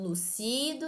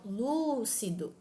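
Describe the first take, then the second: First: The stress is on the second syllable. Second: The stress is on the first syllable. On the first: The speaker calls it wrong. "e não lucido" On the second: The speaker calls it right. "pode ser pronunciada de modo lúcido"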